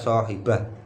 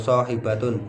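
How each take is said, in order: First: The word ends with an h sound. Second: The word ends with a t and vowel. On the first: "dibaca dengan bunyi h" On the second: "dengan nada tak"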